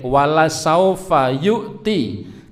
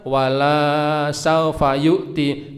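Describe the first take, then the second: First: The vowel of 'la' is held short. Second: The vowel of 'la' is held long. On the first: You will surely be given. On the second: You will surely not be given.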